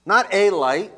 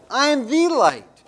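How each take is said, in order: First: "a" set against "the", said lightly and dismissively; "Not a light" with the weak article; stress on a. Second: "the" in "I am the light" hit higher and louder; stress on THE. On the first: Pastor contrasting a and the for the congregation, stressing the article. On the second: Pastor insisting to the congregation it is the one light, stressing the. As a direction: punch the word "the" in "I am the light". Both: Shown as a demonstration.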